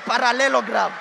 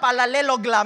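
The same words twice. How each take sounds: First: The r and l sounds are standard. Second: The r and l sounds are swapped. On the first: This is the usual standard pronunciation. The speaker calls it wrong. "and not parallelogram" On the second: This is the regional pronunciation being defended. The speaker calls it right. "the people of Mount Kenya have been pronouncing it right"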